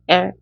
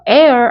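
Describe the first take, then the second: First: It is said as a short, closed 'L'. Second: It is said with an open 'air' vowel. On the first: The speaker calls it right. "L 이렇게 해주실 거예요" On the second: The speaker calls it wrong. "air 아니고요"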